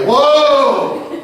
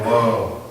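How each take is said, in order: First: It is said with the most force. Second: It is said mildly, with little force.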